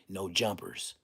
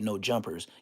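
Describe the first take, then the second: First: The final S sound is long and hissed. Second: The final S sound is short and plain. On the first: "You got to say it with an S like four extra" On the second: "I say No Jumpers"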